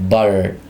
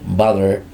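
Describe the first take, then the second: First: The middle t sounds like a quick d. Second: The same.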